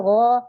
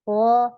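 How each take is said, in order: Both takes have the same delivery.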